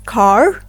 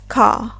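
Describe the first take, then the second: First: American accent, with the R pronounced clearly. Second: British accent, with the R soft or silent. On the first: "In American English, we pronounce it as" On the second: "while in British English, we pronounce it as"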